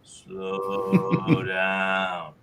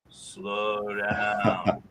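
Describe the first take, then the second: First: It is said at a low pitch, slowest. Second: It is said at a middle pitch, slower.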